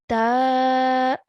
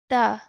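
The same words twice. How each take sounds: First: The vowel is held for two counts. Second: The vowel is held for one count. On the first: "our sound will be stretched to two counts" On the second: "pronounced for one count"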